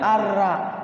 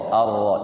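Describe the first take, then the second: First: The r is thin, with an a-like vowel. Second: The r is heavy, with an o-like vowel. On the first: The speaker calls it wrong. "Jangan arra. Arra itu tipis" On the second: The speaker calls it right. "Ro, ro ya"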